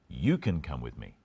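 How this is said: The stress is on the word you.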